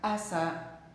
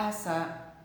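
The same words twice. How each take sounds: First: The s sound is short and single. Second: The s sound is short and single.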